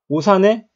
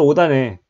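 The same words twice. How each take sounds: First: The final s sound carries over into the next word. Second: The final sound becomes d before the next word. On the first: The speaker calls it wrong. "시옷이 바로 뒤로 이사가기 때문에 ... 그러면 경기도 오산 얘기하는 건데요?" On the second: The speaker calls it right. "그럼 디귿으로 바뀌었잖아요"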